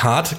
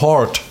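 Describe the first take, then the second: First: The vowel is an open 'ah' sound. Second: The vowel is a rounded 'oh' sound. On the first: The speaker calls it right. "er hat nicht hart gesagt" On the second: The speaker calls it wrong. "sondern hard"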